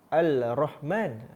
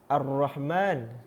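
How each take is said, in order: First: A clear L is said before the R. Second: The L merges into a doubled R sound. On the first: "Kenapa awak tak baca uh, uh, Al Al-Rahman?" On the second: "Kenapa awak baca Ar-Rahman?"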